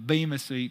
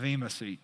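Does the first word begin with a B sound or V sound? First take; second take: B sound; V sound. First: The first word begins with a clear B sound. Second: The first word begins with a V-like sound. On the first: This is the common everyday pronunciation. "most people say" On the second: This is closer to the Greek pronunciation. "the B kind of has a V sound"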